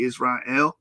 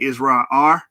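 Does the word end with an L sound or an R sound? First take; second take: L sound; R sound. First: The word ends with an L sound. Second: The word ends with an R sound. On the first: "It wouldn't be Israel" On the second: "they say there's no L, so they say it would be Israel R"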